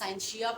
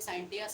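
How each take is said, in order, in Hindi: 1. बीच का व्यंजन 'sh' ध्वनि है। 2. बीच का व्यंजन 't' ध्वनि है। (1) "कुछ लोग इसे साइंशिया पढ़ते हैं" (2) "कुछ लोग साइंटिया, साइंटिया भी ठीक है"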